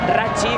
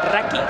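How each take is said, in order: First: The middle consonant sounds like 'ch'. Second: The middle consonant sounds like 'k'. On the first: It is read the Spanish way from the spelling. "tiene la camiseta Rachi" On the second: It is the Italian pronunciation. "en italiano se pronunciaría Raki"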